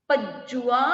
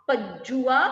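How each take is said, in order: Both takes have the same delivery.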